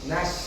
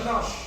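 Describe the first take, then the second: First: The vowel is open and wide, like a. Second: The vowel is rounded and heavy, like o. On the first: The speaker calls it right. "Tapi kalau nas mengandung lebar" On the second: The speaker calls it wrong. "Jangan nos. ... Nos mengandung tafkhim"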